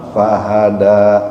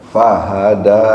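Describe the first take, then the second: No difference in how they are said.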